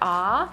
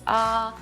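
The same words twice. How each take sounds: First: The pitch rises like a question. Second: The pitch stays level and flat. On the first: "the second tone sounds like a question" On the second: "like a flat tone"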